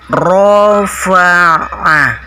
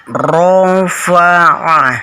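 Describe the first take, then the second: No difference in how they are said.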